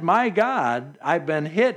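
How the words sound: It is said as a sharp startled exclamation. God's name is used as a mere expletive. The speaker calls it wrong. "as an exclamation point or a point of fact, not speaking about the Lord"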